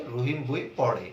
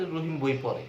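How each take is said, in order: First: পড়ে with the tongue curled back for ṛ; careful "poṛe" for পড়ে, retroflex not plain r; correct retroflex ṛ. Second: পড়ে said with plain r, as "pore"; casual "pore" for পড়ে, no retroflex flap; everyday mispronunciation. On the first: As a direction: flap the ড় in পড়ে clearly. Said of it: "কিন্তু তাকে বলতে হবে". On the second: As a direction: let the ড় in পড়ে slip to an ordinary র. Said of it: "বয়বিন্দু র এর মতো উচ্চারণ করে ফেলি". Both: Shown as a demonstration.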